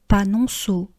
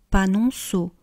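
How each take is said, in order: The two takes are said the same way.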